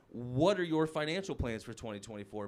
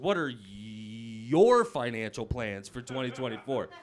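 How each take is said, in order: First: It is said in a plain, neutral tone. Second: It is said in a condescending, patronizing tone.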